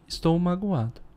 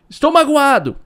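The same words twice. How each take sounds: First: It is said calmly and quietly. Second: It is shouted loudly.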